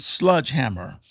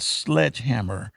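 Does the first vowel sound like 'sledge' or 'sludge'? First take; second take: sludge; sledge. First: The first vowel sounds like the 'u' in 'sludge'. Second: The first vowel sounds like the 'e' in 'sledge'. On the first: This is the home dialect form from childhood. "sludge hammer rather than sledgehammer" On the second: This is the standard form. "rather than sledgehammer"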